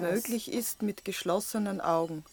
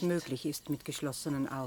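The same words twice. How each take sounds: First: It is spoken at a slowed-down speed. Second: It is spoken at a normal speed.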